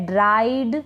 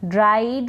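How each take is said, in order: Both takes have the same delivery.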